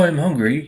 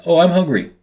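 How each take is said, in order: First: Imitated English pronunciation of "hungry"; mock-English "hungry"; English accent. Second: Said in the usual way. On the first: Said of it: "that's not how you say it". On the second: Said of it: "for example, if I'm like".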